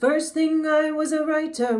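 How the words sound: The sound is darker and placed further back. The speaker calls it wrong. "which is back here"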